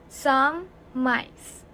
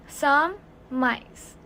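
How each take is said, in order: The two takes are said the same way.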